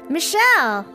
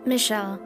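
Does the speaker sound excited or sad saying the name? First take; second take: excited; sad. First: The name is said in a bright, excited tone. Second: The name is said in a flat, sad tone.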